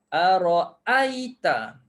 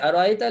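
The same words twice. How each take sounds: First: The second glottal stop is fully and clearly pronounced. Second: The second glottal stop is softened and glided over. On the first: This is the Hafs reading. "biar kita sebut betul-betul bunyi hamzah" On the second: This is the Qalun reading. "macam tu. Itu dah jadi kolon"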